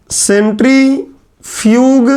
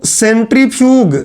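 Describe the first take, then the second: First: सेंट्रीफ्यूग drawn out very slowly, syllable by syllable; teacher dictating सेंट्रीफ्यूग very slowly; slow dictation. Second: Said in the usual way. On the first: Shown as a demonstration. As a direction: stretch every syllable of सेंट्रीफ्यूग. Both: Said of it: "English में बोलते हैं".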